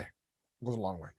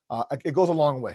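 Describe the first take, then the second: First: Softer, lower and reflective; quiet emphatic repeat. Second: Said in the usual way. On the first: Real, not acted. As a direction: let it sink in quietly.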